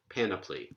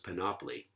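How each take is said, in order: First: The stress is on the first syllable. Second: The stress is on the second syllable. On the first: "anti-penultimate stress, and I'm sure that that's the standard pronunciation" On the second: "I always thought it was panoply"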